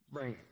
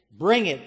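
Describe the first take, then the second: First: Muttered softly, almost under the breath; quiet. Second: "Bring it" thrown out loud and hard; loud challenge. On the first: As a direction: drop it to a near hush. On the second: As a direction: shout "Bring it" as a dare. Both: Shown as a demonstration. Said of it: "Here it is".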